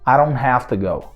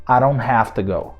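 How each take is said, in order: First: The words are run together in fluent speech. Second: The words are run together in fluent speech.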